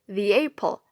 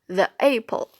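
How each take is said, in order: First: The word 'the' ends in an ee sound. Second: The word 'the' ends in an uh sound. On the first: The speaker calls it right. "article the when it precedes a vowel, such as the apple" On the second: The speaker calls it wrong. "not the apple"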